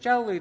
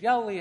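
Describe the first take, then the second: First: The word begins with a j sound. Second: The word begins with a y sound. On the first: "Same word. Different tongue" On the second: "Different tongue, different inflection"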